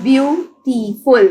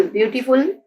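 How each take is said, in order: First: beautiful slowly split as byu, tee, ful; syllable by syllable. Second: Said in the usual way. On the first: Shown as a demonstration. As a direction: pause between the syllables of beautiful. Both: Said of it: "Put a dot between syllables".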